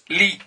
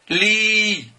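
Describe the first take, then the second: First: The vowel is short. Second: The vowel is long. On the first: "je mets un kasra au-dessous de lem ... là ça se prononce li" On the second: "si j'allonge cette voix, ça se prononce li"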